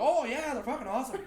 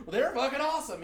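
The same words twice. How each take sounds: First: High-pitched mock Irish-Canadian agreement; Irish Canadian accent. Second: Said in the usual way. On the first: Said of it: "Irish Canadian".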